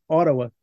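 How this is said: The middle consonant is a soft d-like sound. This is how Canadians say it. "Fica meio que um D meio mastigado, meio dentro da boca"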